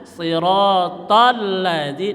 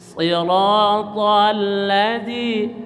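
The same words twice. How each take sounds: First: The doubled consonant is hit abruptly and harshly. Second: The doubled consonant is held back smoothly. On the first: The speaker calls it wrong. "Jangan shiratal ladzi dibentak" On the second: The speaker calls it right. "ditahan aja"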